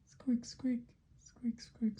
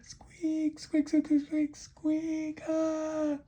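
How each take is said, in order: First: High, whispery little squeaks; tiny high mouse noise. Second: Very high, frantic loud squealing; piercingly high alarmed squeaks; panicked mouse. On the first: Mouse comes back squeaking. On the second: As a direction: squeal like a mouse caught by the tail. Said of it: "And the mouse said". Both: Acted.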